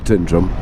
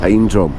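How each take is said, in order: First: The first syllable sounds like 'tin'. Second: The first syllable sounds like 'time'. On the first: The speaker calls it wrong. "It's not Tindrum" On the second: The speaker calls it right. "it's Time Drum"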